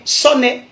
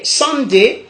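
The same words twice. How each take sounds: First: "Sonnet" as so-nè, no d; Godié pronunciation. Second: "Sunday" as san-dé; English pronunciation. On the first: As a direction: say so-nè, higher pitched. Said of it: "en Gaudier". (« Sonnet » à la godié, prononcé so-nè) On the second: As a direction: sound the d in "Sunday". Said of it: "en anglais". (« Sunday » à l'anglaise, avec le d) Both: Shown as a demonstration.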